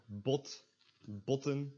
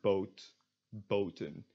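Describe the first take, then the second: First: "bot, botten" with short open aw; short back vowel in "bot, botten"; lax O. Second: "boat, boten" with long oh; tense O. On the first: Teacher reads example words, lax short o in "bot, botten". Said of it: "O is pronounced in here". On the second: Teacher reads example words, tense long oh in "boat, boten". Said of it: "tense version is pronounced". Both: Shown as a demonstration.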